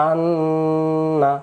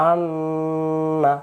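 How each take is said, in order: Both takes have the same delivery.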